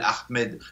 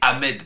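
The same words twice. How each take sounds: First: The initial H is breathed out audibly. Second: The initial H is dropped entirely.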